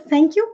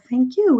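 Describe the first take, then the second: First: The stress falls on the word thank. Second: The stress falls on the word you. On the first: The speaker thanks someone. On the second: The speaker returns the thanks to the other person.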